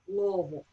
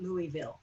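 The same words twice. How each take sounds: First: It is said the local Kentucky way. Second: It is said the outsider's spelled-out way. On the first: The speaker is from the city. The speaker calls it right. "you say it right" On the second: The speaker is not from the city. The speaker calls it wrong. "not Louisville"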